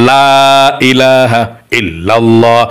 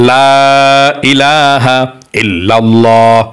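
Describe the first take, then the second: No difference in how they are said.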